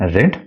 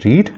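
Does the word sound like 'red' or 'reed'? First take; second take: red; reed. First: It is said with a short vowel, like 'red'. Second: It is said with a long vowel, like 'reed'. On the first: It is the past form of the verb. "read V two" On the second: It is the present form of the verb. "read V one"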